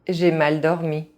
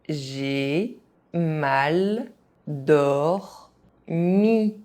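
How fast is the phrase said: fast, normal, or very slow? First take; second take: fast; very slow. First: It is said fast, with some sounds dropped. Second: It is said very slowly, syllable by syllable. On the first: This is how native speakers say it. "fast, as a native speaker would do" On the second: Each syllable can be followed. "very slowly"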